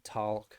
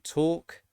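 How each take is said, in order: First: It is spoken in an imitated American accent. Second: It is spoken in a British accent.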